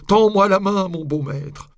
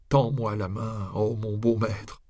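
First: "Tends-moi la main" cried out high and loud; desperate ghostly cry. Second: Slow ghostly plea. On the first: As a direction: cry out the plea from hell. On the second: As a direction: plead slowly like a ghost. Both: A narrator's reading. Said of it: "voix sépulcrale".

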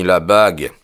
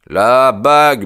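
First: Said in the usual way. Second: "La bague" punched out louder and higher; a mild Holmes triumph on "bague"; emphatic. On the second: Acted. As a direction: land hard on "bague", announcing the answer. Holmes stresses the ring twice.

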